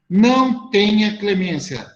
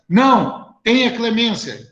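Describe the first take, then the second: First: It is said without a pause after não. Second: There is a pause after não.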